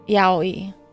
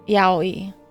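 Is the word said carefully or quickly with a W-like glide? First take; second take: carefully; carefully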